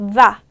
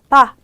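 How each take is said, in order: First: It starts with a buzzing v sound. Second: It starts with a plain b sound. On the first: "V발음을 하실 때는 입술에 진동이 느껴질 만큼 힘을 줘야 돼요" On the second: "비읍 발음이래요. 그래서 그냥 바"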